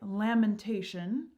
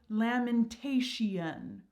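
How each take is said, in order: First: The ending is said short. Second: The ending is drawn out longer.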